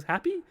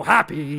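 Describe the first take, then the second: First: HAPPY pitched very high, rising; questioning. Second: HAPPY much louder, falling firmly; insistent answer. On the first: Steve doubts the chorus, "Happy" as high rising question. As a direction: ask "Happy" in a high, puzzled squeak. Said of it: "And he goes". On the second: Phantom chorus insists to Steve, "Happy" loud and falling. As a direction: push "Happy" out as a loud statement. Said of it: "And they all go". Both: Acted.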